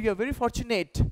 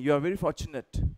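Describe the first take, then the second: First: The last syllable of fortunate sounds like 'nate'. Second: The last syllable of fortunate sounds like 'nut'. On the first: The speaker calls it wrong. "नेट नहीं" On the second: The speaker calls it right. "नट"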